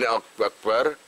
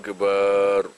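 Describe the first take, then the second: First: The vowel after the b is short. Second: The vowel after the b is drawn out long. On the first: The speaker calls it right. "Mesti ini akbar" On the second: The speaker calls it wrong. "malah jadi dawan alif"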